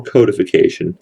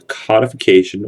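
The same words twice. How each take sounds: First: "codification" with CODE as first syllable; long-o "codification", starting like "code"; alternative pronunciation. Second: "codification" with COD as in the fish; short-o "codification", first syllable like "cod"; first pronunciation variant. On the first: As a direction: say "codification" as KOH-dih-fih-KAY-shun. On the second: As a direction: say "codification" as KAH-dih-fih-KAY-shun. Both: Shown as a demonstration. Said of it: "however you wanna say it".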